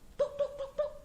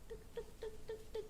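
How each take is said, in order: First: The knocking sound is loud and forceful. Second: The knocking sound is soft and gentle. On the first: It sounds rude and angry, like a thug. The speaker calls it wrong. "Gedor-gedor pintu kayak preman" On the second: It sounds polite and well-mannered. The speaker calls it right. "Pelan-pelan kayak gitu"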